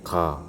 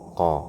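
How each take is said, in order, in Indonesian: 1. Suku kata ini terdengar tipis, vokalnya mendekati a. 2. Suku kata ini terdengar tebal, vokalnya mendekati o. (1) "Kalau kita turunkan lidahnya jadinya ka" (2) "Cukup lidahnya saja naik ke atas begini"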